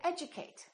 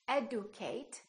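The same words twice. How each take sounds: First: The consonant before 'u' sounds like j. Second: The consonant before 'u' is a plain d. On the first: The speaker calls it right. "We say" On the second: The speaker calls it wrong. "We don't say"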